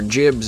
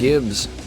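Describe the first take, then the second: First: The word begins with a soft j sound. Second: The word begins with a hard g sound.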